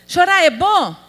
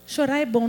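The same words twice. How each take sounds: First: "Chorar é bom?" called out louder and higher; louder question. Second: Said in the usual way. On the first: Shown as a demonstration. Preacher prompting the sisters to answer "Chorar é bom?" loudly. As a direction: ask the congregation "Chorar é bom?" boldly. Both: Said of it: "Fala que é, ajuda".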